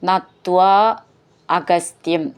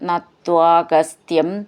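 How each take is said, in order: First: The two words are said as separate words. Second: The two words are merged into one word.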